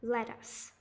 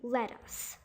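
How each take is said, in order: First: The second vowel is an uh sound. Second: The second vowel is an uh sound.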